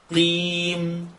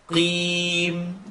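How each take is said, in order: Both takes have the same delivery.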